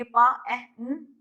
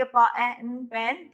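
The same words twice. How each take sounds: First: पा, ए, न each said apart, never joined; segmenting demo. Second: पा, ए, न said apart, then joined into पेन; blending demo. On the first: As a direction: sound the parts only and stop. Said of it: "जब हम सिर्फ कहेंगे कि". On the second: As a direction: sound each part, then blend into one word. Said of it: "blending का मतलब". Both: Shown as a demonstration.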